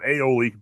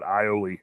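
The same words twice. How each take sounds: First: It does not sound like 'I owe Lee'. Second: It sounds like 'I owe Lee'. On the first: The speaker calls it wrong. "not aioli" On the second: The speaker calls it right. "but aioli"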